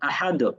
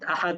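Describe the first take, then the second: First: The final consonant ends with a slight echoing bounce. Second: The final consonant ends flat with no bounce. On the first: The speaker calls it right. "কলকলা বলে থাকি আহাদ" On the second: The speaker calls it wrong. "এই আহাদোর মতো না করে অনেকেই আহাদ আহাদ বলেছেন"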